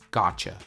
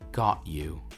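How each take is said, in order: First: "Got you" is blended into "gotcha". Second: "Got you" is said as two full words.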